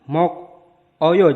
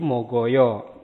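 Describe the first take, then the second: First: The consonant ends the first syllable, sounded separately. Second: The consonant starts the next syllable, smoothly linked.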